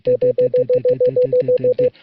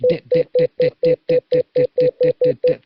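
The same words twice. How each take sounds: First: "dit, dit, dit" clipped short and running into each other, the last one complete; run-together dits. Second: Every "dit, dit, dit" fully pronounced and spaced apart, the wrong way; separate full dits. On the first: Morse teacher demonstrating the right rhythm, run-together dits. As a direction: let each "dit" blur into the next until the final full "dit". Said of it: "the dits leading up are kind of incomplete".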